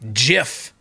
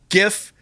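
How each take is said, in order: First: The word begins with a J sound. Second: The word begins with a hard G sound. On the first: The speaker calls it wrong. "who invents a GIF and calls it a JIF?" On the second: The speaker calls it right. "Graphics interchange format"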